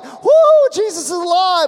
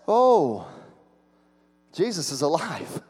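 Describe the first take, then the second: First: It sounds joyful and excited. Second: It sounds dismayed and uneasy.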